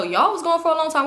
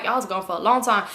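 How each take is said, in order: First: "y'all" pushed higher to turn it back; higher retort, "y'all" stressed. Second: Said in the usual way. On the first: Retold or imitated. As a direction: lean on "y'all" with a raised pitch. He turns the accusation back.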